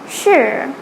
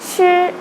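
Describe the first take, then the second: First: The pitch dips down, then rises. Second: The pitch stays level and high. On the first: "the third sure" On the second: "the first tone was sure"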